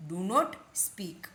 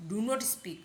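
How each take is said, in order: First: Word by word, with a gap; slow model. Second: Said in the usual way. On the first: Shown as a demonstration. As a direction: space out the words for learners. Slow take, then a quicker repeat. (शब्द अलग-अलग करके, धीरे-धीरे)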